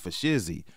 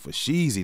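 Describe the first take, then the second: First: The stressed vowel is a short 'i' sound. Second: The stressed vowel is a long 'ee' sound. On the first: The speaker calls it wrong. "not for Shizzy" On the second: The speaker calls it right. "He was saying for Sheezy, not for Shizzy"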